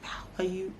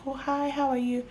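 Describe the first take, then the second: First: Voiceless, clipped hello through annoyance; pissed whisper. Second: High, bright fake-polite hello; forced polite greeting. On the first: Retold or imitated. Greeting a client in a whisper while she is pissed off. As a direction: whisper the greeting flatly, fuming. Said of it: "So I'll be like". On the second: Greeting a client with forced politeness while angry. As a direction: greet them sweetly while pissed. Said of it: "I'm like".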